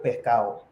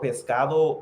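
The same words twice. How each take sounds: First: The d sound near the end is dropped. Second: The d sound near the end is pronounced. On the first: "they cut off D's a lot" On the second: "So like you have the word pescado"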